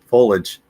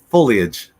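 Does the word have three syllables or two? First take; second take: two; three. First: It is said with two syllables, skipping the middle. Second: It is said with three syllables, including the middle. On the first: The speaker calls it wrong. "The incorrect way, but the way I pronounce it" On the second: The speaker calls it right. "but it's foliage"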